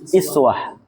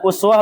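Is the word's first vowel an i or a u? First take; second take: i; u. First: The first vowel is a front i sound. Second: The first vowel is a rounded u sound. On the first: "boleh dikasrah" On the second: "Uswa ini boleh mendom hamzah"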